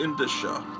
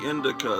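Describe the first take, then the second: First: The middle consonant is a soft sh sound. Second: The middle consonant is a hard k sound. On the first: The speaker calls it right. "it's really Indicia" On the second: The speaker calls it wrong. "I've been mispronouncing, calling this the Indica"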